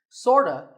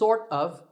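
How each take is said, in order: First: The words are blended into one short reduced word. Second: Each word is pronounced fully and separately.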